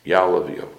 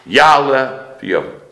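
First: Said in the usual way. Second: YA'ALEH drawn out, high and loud; emphatic proclamation. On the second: Real, not acted. Preacher quoting the plea to God, emphatic proclamation. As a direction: stretch and lift "Ya'aleh", then fall on V'Yavo. Proclaims prayer words, then repeats plainly.

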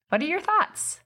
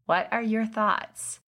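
First: High, bright rising ask; eager question. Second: Slowed-down, deliberate ask; slow question. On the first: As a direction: pitch it up high with real curiosity. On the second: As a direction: draw each word out and wait. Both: Shown as a demonstration. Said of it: "the follow-up is".

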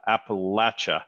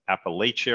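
First: Appalachia with a short "latch" third syllable; local pronunciation. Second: Appalachia with a long "lay" third syllable; mispronounced place name. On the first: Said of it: "most people know as". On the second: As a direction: say Appalachia as appa-LAY-cha. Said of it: "I knew I was gonna mess it up". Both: Real, not acted.

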